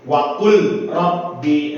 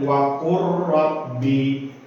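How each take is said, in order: First: The l sound is kept before the r. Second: The l sound merges fully into the r. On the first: The speaker calls it wrong. "kita nggak boleh membaca dengan seperti ini" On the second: The speaker calls it right. "maka suara lam sukun masuk pada huruf ra"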